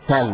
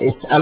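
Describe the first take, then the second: First: The word has no glottal stop. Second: The word contains a glottal stop.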